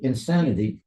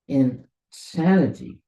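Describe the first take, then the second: First: It is said quickly as one word. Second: It is said as two separate words. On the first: The person is crazy. The speaker calls it wrong. "If you read it quickly" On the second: The person has come to their senses. The speaker calls it right. "There's two words, in and then insanity"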